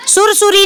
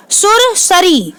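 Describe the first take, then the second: First: सुरसुरी with u in the middle, as the wrong form; naming सुरसुरी as the mistake; wrong pronunciation. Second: सुरसरी said slowly, with a short a in the middle: sur-sa-ri; drawn out slowly so students hear सुरसरी; corrected pronunciation. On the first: Teacher contrasts wrong form with right one, plain. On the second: Teacher slowly corrects the word for students, drawn out. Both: Shown as a demonstration. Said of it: "सुरसुरी नहीं".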